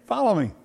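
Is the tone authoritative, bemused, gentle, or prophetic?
gentle. It is said in a soft, gentle, inviting tone. It is a kind invitation. "Or a gentle invitation"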